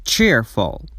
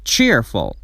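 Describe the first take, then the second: No difference in how they are said.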